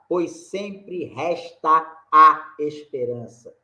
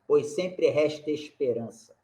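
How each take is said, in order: First: The vowels are said as separate syllables. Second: The vowels merge into one single syllable. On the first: The speaker calls it wrong. "A gente não fala" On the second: The speaker calls it right. "Nós falamos ... Juntou"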